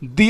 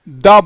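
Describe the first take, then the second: First: The vowel is a long ee sound. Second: The vowel is a short uh sound. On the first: The next word begins with a vowel sound. "द को दी पढ़ा जाएगा" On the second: The next word begins with a consonant sound. "दा को दा ही पढ़ा जाएगा"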